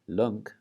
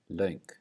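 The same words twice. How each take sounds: First: The vowel is a plain single vowel. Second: The vowel glides like a diphthong. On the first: The speaker calls it wrong. "instead of saying" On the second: The speaker calls it right. "we're going to say"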